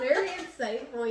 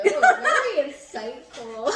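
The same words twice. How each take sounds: First: "Very insightful" repeated quicker through laughter, falling; laughing. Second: "Very insightful" drawn out slowly, much louder, laughing; mock praise. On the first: Real, not acted. Still laughing at co-host's artsy line, amused. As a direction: laugh while saying "Very insightful" again. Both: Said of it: "Ooh, look at that".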